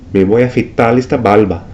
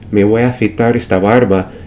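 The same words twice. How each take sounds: First: The syllable-final r sounds like an l. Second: The syllable-final r sounds like an r. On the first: "pronounce the R sound at the end of a syllable or word like the L" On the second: "instead of"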